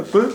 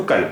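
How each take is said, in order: First: कुल said as k straight into l; no vowel after k. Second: कल with a clear short a; full vowel after k. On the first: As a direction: drop the vowel between k and l in कुल. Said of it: "अगर काफ पर जज़म है". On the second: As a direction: say कल as a full open syllable before the l. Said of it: "और ज़बर है तो". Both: Shown as a demonstration.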